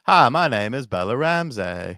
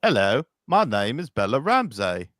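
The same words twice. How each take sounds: First: Southern accent. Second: A light British accent; mock British voice. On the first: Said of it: "I think you should do the Bella Ramsey". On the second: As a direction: put on a hint of an English accent. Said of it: "you could transfer that into an England voice". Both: Shown as a demonstration.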